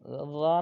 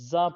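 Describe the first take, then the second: First: The z sound is plain, without a whistle. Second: The z sound is sharp, like a whistle. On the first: The speaker calls it wrong. "ज़ा ना पढ़ा जाए" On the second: The speaker calls it right. "सीटी की आवाज़ यही है"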